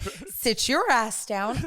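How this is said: It is said in a sweet, gentle tone. The words are meant kindly, without malice. "she had the sweetest intent"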